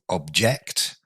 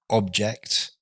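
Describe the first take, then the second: First: The stress is on the second syllable. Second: The stress is on the first syllable. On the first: It is a verb meaning to disagree. "So the stress falls on the second syllable" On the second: It is a noun meaning a thing. "object, a thing"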